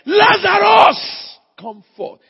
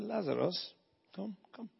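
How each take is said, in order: First: It is said loudly, as a shout. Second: It is said quietly, without shouting.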